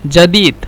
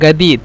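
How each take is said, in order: First: The word starts with a j sound. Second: The word starts with a hard g sound. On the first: "জিমকে হয়তোবা জিম বলে" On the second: "জিমকে গয়েন বলে"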